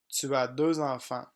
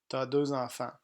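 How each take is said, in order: First: The pronoun tu is said in full. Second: The pronoun is shortened to a bare t sound. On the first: This is the written, formal form. "Français écrit" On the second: This is the everyday spoken form. "Français parlé"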